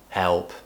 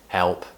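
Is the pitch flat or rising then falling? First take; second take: flat; flat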